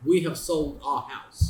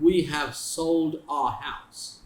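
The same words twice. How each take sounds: First: Said in the usual way. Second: Very slow, spelled-out example sentence. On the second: Shown as a demonstration. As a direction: say each word slowly for the class. (बहुत धीरे, शब्द-शब्द करके)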